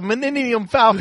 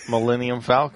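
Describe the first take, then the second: First: The first word is said with n sounds. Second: The first word is said with an l sound. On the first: The speaker calls it wrong. "It used to be Meninendum Falcon" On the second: The speaker calls it right. "He has practiced"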